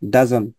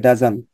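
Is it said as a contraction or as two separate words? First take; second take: contraction; contraction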